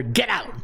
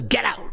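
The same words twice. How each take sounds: First: Said in the usual way. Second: Imitating Herm Edwards. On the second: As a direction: Get out, said higher like the coach's clip. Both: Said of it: "it's the way he says".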